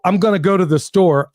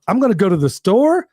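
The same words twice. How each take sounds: First: Said in the usual way. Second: "store" lifted into a question; mock uptalk with a rising "store". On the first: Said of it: "Make a declarative statement and don't say". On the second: Shown as a demonstration. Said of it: "don't say, like".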